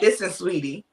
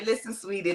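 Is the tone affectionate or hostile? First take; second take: hostile; affectionate. First: It sounds tense and confrontational. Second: It sounds warm and affectionate.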